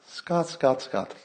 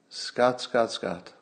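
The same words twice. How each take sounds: First: It is said in an imitation of Dale's voice. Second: It is said in the speaker's own voice.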